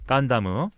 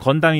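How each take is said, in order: First: It is said in three syllables, Gan-da-mu. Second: It is said in two syllables, Geon-dam.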